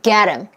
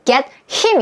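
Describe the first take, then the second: First: The h is dropped and the t becomes flapped. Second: The h sound in him is clearly pronounced. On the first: "거의 get him, get him 이렇게 들렸죠. 왜냐하면 H가 강세가 없을 때는 잘 빠져요" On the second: "근데 여러분 get him 이렇게 들렸어요?"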